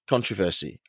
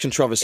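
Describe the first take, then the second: First: The word is said the American way. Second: The word is said the British way. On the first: "That's that's American" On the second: "It's controversy in British"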